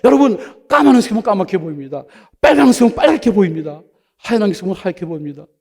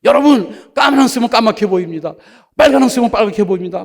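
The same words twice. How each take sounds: First: Loud, high mimicry of an old elder's sermon; preaching elder. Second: Loud, high country elder preaching; hammed-up elder's sermon, loud and high. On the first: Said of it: "또 설교하는 거야". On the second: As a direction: bellow it like a simple old elder at the pulpit. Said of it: "이 안경을 들고 막".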